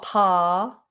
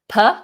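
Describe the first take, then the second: First: The vowel is a full, open vowel. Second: The vowel is a short, reduced schwa. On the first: The speaker calls it wrong. "not pa" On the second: The speaker calls it right. "I think it's going to always be a schwa"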